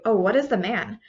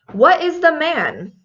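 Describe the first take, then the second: First: Said in the usual way. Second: Puzzled rising "What is the man?" with the stress on "the"; teacher mocks the common wrong answer; wrong version. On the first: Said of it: "very rarely would you ever say". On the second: Shown as a demonstration. Teacher acts out the wrong question, puzzled. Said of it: "That was the most common wrong answer".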